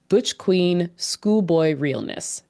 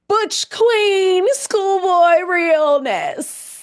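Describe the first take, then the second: First: It is said in the speaker's plain voice. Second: It is said as an impression of Pray Tell.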